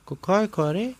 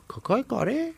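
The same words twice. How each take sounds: First: High, questioning henchman voice; high confused mumble to himself; puzzled repeating. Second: Squeaky puzzled repeat; puzzled again. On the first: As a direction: mull it over aloud, baffled. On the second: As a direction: try the phrase once more, lost. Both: Acted. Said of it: "با خودش تکرار کرد".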